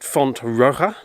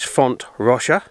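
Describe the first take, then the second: First: The J is sounded the Spanish way. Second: The J is sounded the Valencian way. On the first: The speaker calls it wrong. "In the past I've pronounced it Font Roja, but I've discovered that's wrong" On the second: The speaker calls it right. "it's a Valencian name, so the pronunciation of the J is different"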